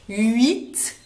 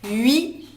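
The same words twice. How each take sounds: First: The final t sound is pronounced. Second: The final t sound is silent.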